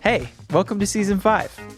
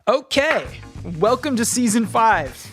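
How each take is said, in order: First: It is said with calmer, moderate energy. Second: It is said with very high energy.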